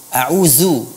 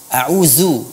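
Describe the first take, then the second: First: The 'dh' sound has a hissing whistle. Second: The same.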